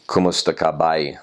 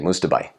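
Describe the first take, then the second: First: All syllables of the greeting are said fully. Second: The greeting is clipped into one short word. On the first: "you would say" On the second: "they would just chop it off like that"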